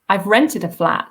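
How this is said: The stress falls on the word rented. It was rented, not bought. "so I haven't bought it, but I've rented it"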